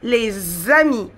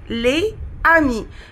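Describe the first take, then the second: First: The words are linked with a z sound. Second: The words are not linked with a z sound. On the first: "nous faisons une liaison, on dit les amis" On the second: "c'est les amis. Mais nous, nous faisons une liaison"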